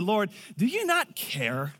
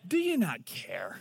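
First: Indignant complaint. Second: Quieter slow repeat. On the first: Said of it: "and said". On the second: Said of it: "that's never a good idea to say to God". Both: Retold or imitated.

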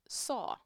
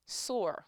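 First: Put-on "saw" in a New York accent, the r dropped so it sounds like saw. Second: "Soar" said carefully with a clear r at the end; corrected pronunciation. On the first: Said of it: "Sorry, I'm from New York". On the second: Shown as a demonstration. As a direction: fix it to "Soar" with a full r.

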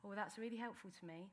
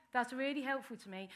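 First: Quiet aside. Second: Said in the usual way. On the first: Real, not acted.

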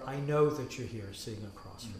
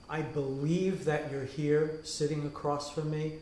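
First: Know leaned on, a bit lower and softer; stress on know. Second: Believe leaned on as the key word; stress on believe. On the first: Rabbi offering know as the truer word, stress on know. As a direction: land the word know, the sure claim. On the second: Rabbi weighing believe against know, stress on believe. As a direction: press on believe, the shaky claim. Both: Shown as a demonstration. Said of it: "which is a more accurate statement".

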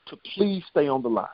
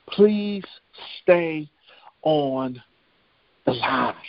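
First: Said in the usual way. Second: Word by word, long pauses, stepping down in pitch; deliberate refrain. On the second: Retold or imitated. Preacher driving home the operator's instruction, deliberate word-by-word refrain. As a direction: let each word stand alone, falling lower to the end.

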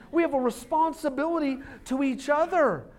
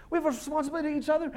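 First: Said in the usual way. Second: Much faster rattled-off repeat; hurried second take; rapid repeat. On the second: Shown as a demonstration. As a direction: fire the line off quickly.

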